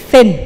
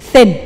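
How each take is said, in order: No difference in how they are said.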